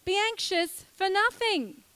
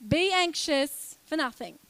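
First: "Be anxious for nothing" said again higher, "nothing" leaned on; emphatic repeat. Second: Said in the usual way. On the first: Shown as a demonstration. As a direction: repeat the verse to drive it home. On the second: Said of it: "it says".

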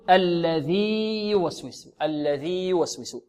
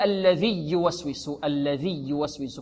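First: الذي يوسوس with a long held "dhii", then a distinct "yu"; slow, stretch الذي before يوسوس; separated ya. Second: الذي يوسوس fused as "alladhiyyuwaswisu"; merged ya. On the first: Teacher giving the correct version, separated ya. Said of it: "بل نقول". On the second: Teacher showing what not to say, merged ya. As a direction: shorten the long ee of الذي into a doubled y. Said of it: "لا نقول". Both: Shown as a demonstration.

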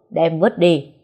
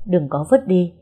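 First: Curt loud order. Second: Hasty loud objection. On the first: Master orders cloth thrown. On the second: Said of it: "vội gàn lại". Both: Acted.

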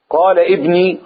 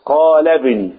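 First: ابني said with a hard glottal stop; ابني, stopped glottal onset; wrong hamza. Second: ابني joined to قال with no stop; ابني flowing, no glottal stop; linked hamza. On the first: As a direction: hit ابني with a clear stop. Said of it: "غلط". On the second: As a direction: run قال ابني together, qalebni. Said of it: "اوعى تنطقها بهمزة القطع". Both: Shown as a demonstration.

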